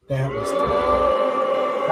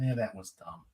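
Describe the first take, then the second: First: Much higher, slow mock shriek on "That was dumb"; mock outburst. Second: Said in the usual way. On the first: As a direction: yell "That was dumb" high and stretched out. Repeats verdict as outburst. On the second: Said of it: "repeats own verdict".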